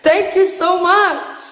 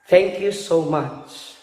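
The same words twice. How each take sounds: First: The voice sounds happy and bright. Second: The voice sounds sad and low. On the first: "I am happy" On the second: "I am sad"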